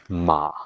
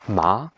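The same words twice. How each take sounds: First: The syllable is said with the third tone. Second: The syllable is said with the second tone.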